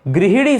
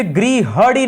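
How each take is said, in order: First: गृहिणी with "hi" in the middle; गृहिणी with an i after the h; correct pronunciation. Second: गृहणी with "ha" in the middle; the mistaken गृहणी, middle vowel a short a; wrong pronunciation. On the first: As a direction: say गृहिणी as "gri-hi-nee". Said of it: "सही शब्द होता है गृहिणी". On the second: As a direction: say गृहणी as "gri-ha-nee". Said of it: "गृहणी नहीं होता है". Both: Shown as a demonstration.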